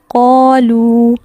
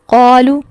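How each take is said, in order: First: The final vowel is held long. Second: The final vowel is cut short. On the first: The speaker calls it right. "यहाँ दुरुस्त अदायगी क्या है?" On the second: The speaker calls it wrong. "ये गलत है, क्योंकि लाम के आगे वाव साकिन आ रहा है पेश के बाद, उसको लंबा करना ज़रूरी है"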